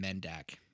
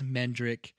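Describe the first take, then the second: First: The name is said as Mendak. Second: The name is said as Mendrick. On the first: The speaker calls it wrong. "I kept calling him Mendak for some reason" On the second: The speaker calls it right. "It is Mendrick"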